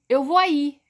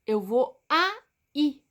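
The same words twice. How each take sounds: First: Said in the usual way. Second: "aí" drawn out slowly as a, í with a pause; syllable by syllable. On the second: Shown as a demonstration. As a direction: split "aí" into two separate beats. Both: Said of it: "Duas sílabas".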